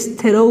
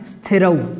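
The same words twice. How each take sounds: First: An extra vowel is added before the word. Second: The word starts directly with the consonant cluster. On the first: The speaker calls it wrong. "कुछ लोग स्थिरौ बोल देते हैं। स्थिरौ इसका सही उच्चारण नहीं है" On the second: The speaker calls it right. "इसको बोलना है स्थिरौ"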